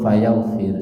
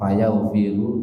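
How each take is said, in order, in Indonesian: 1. Kata ini berakhir dengan konsonan, tanpa vokal. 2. Kata ini diakhiri vokal u pendek. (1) "dibaca sukun" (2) "dibaca dhammah"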